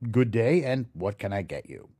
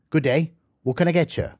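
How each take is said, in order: First: It is said slowly and clearly. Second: It is said fast, run together.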